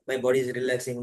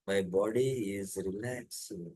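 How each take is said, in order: First: The phrase is said quickly, rushed and repeated. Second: The phrase is said slowly, word by word. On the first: The speaker calls it wrong. "बार बार ... ऐसा नहीं बोलना" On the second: The speaker calls it right. "एकदम धीरे धीरे ... वैसे धीरे धीरे बोलना है"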